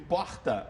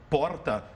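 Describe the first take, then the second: First: It is said in a Rio de Janeiro accent. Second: It is said in a São Paulo city accent. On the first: "E quando a gente ouve porta" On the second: "O pessoal do Rio, quando nos escuta falar porta"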